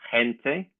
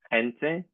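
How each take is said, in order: First: It is said with the modern Spanish pronunciation. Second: The same.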